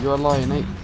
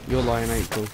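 First: Odd lilt on "Lion April", pitch climbing; "Lion April" pushed up and out awkwardly; said weirdly. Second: Said in the usual way. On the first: Real, not acted. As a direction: say "You're a Lion April" oddly, rising through it. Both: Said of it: "Why did I say that weirdly".

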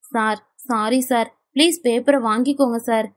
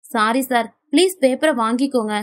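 First: Tearful pleading. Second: Said in the usual way. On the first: A narrator's reading. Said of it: "அழுகையோடு".

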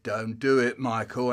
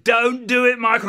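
First: Understated inner warning; little voice of conscience. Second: Loud, high warning; insistent little voice. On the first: Conscience warning boy off bending it, mild warning. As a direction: caution gently, just under the story. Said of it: "a little voice said". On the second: Conscience to boy bending it, urgent warning. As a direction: conscience raising its voice. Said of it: "the little voice said". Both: Acted.

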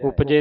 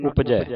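First: ਉਪਜੇ ending in closed e; wrong ending. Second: ਉਪਜੈ ending in open "ai"; corrected ending. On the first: Teacher showing the misreading, ਉਪਜੇ with e ending. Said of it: "ਨਹੀਂ ਪੜਨਾ". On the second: Teacher correcting the reading, ਉਪਜੈ with open ai ending. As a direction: end ਉਪਜੈ on ai, not e. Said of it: "ਉਪਜੇ ਨਹੀਂ ਪੜਨਾ". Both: Shown as a demonstration.

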